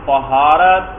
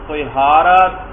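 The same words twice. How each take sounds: First: The first vowel is a, as in tahara. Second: The first vowel is i, as in tihara. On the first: "قا کے فتحہ کے ساتھ" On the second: "قا کے کسرہ کے ساتھ"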